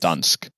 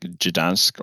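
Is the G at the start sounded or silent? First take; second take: silent; sounded. First: The initial G is left silent. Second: The initial G is clearly pronounced. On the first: "like without the G" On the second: "you're supposed to say the G"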